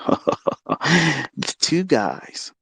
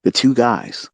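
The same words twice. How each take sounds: First: Laughing. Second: Said in the usual way. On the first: Real, not acted. Laughs while repeating it.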